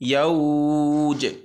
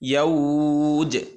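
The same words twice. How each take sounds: Both takes have the same delivery.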